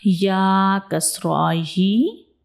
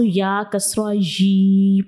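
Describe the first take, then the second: First: The final vowel is short and smooth. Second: The final vowel is stretched out long. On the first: The speaker calls it right. "तो सही हम बिल्कुल इसको किस तरह पढ़ेंगे" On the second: The speaker calls it wrong. "हम ज़बर ज़ेर की अलामत को लंबा कर देते हैं, साउंड को लंबा कर देते हैं"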